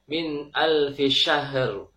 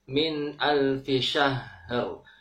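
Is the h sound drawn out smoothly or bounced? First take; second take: bounced; drawn out. First: The h sound is bounced before the r. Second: The h sound flows smoothly before the r. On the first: The speaker calls it wrong. "Ha dibaca dengan mantul. Ini tidak tepat" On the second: The speaker calls it right. "Ha sukun sedikit e, dialirkan karena ha mempunyai sifat rokhwah"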